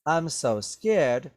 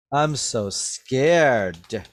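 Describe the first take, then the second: First: Slowed mock fear; sarcastic. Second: Very slow, louder mock fear; sarcastic. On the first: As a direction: say it like you don't mean it. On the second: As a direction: stretch it out, not meaning a word. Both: Shown as a demonstration. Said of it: "He said that sarcastically".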